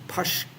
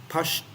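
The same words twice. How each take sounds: No difference in how they are said.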